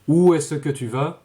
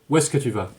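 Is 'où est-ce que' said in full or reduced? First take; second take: full; reduced. First: Où est-ce que is said with all its sounds. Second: Où est-ce que is shortened and run together.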